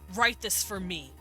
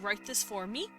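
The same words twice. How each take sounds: First: The pitch falls at the end. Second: The pitch rises at the end. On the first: It is a command. "I go down in tone because it's a command" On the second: It is a question. "if I'm asking a question and the tone raises"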